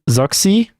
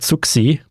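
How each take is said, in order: First: The name is read the English way. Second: The name is read the German way. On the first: "I don't know if that's like supposed to be read in English, but let's say Zoxy" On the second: "like a German pronunciation would be something like Zuxi"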